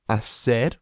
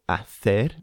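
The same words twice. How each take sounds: First: It is said in a Latin American accent. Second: It is said in a Spain accent.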